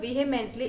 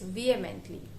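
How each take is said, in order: First: The h sound is pronounced in the middle. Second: The h sound is silent in the middle. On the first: The speaker calls it wrong. "It is not vehemently" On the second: The speaker calls it right. "Here H is silent"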